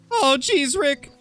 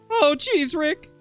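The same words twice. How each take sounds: Both takes have the same delivery.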